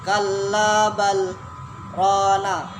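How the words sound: A brief silent stop separates the two words. "kan ada bacaan saktah di atas"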